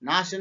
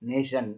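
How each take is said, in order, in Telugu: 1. మొదటి అచ్చు తెరిచిన 'ah' ధ్వని. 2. మొదటి అచ్చు 'ay' ధ్వని. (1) "నాషన్ అనట్లే" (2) "ఇక్కడ నేషన్ అని పలుకుతున్నాం"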